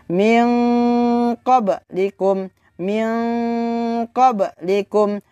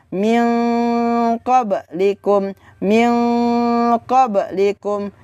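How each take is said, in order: Both takes have the same delivery.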